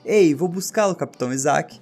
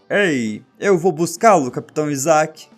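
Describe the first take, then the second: First: A weak, unconvincing pirate accent is used. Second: A stronger, more convincing pirate accent is used. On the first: The speaker calls it wrong. "não sei fazer sotaque de pirata" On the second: The speaker calls it right. "Acho que melhorou"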